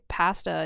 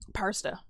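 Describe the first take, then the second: First: The first syllable has no r-like sound. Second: The first syllable sounds like 'par'. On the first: This is how the speaker normally says it. "I also say pasta" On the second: This is how British speakers say it. "If you ask the Brits, pasta contains an R in it"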